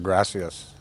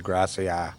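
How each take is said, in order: First: The final S sound is pronounced. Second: The final S sound is dropped.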